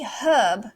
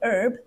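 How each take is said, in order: First: The H at the start is pronounced. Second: The H at the start is silent. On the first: "For the British, they might say herb" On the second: "the Americans, silent H"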